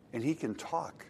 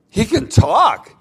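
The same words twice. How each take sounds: First: Said in the usual way. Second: Higher, louder and slow, as if astonished; emphatic repeat. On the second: Shown as a demonstration. The owner insists to the vet, loud and slow. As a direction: hammer it home the second time.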